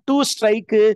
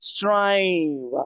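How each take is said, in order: First: 'To' is fully pronounced before 'strive'. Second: 'To' is dropped and only 'strive' is stressed. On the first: The speaker calls it wrong. "சொல்லக்கூடாது" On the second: The speaker calls it right. "the to is not to be pronounced. Instead, we give focus only on the second syllable"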